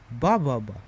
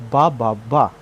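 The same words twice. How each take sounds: First: BA ba ba, the first beat strongest; first-beat stress. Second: Ba ba BA, the final beat strongest; last-beat stress. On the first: Teacher showing dactyl rhythm, stress on the first ba. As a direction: hit the first ba, let two fall away. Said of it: "putting a stress in the first". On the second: Teacher showing anapest rhythm, stress on the last ba. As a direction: build to a punched third ba. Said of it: "putting stress in the last". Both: Shown as a demonstration.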